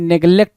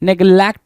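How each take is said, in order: First: The second syllable has the vowel of 'bet'. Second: The second syllable has the vowel of 'cat'. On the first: The speaker calls it right. "नेग्लेक्ट बोलते हैं" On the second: The speaker calls it wrong. "नेग्लेक्ट बोलते नहीं है भाई"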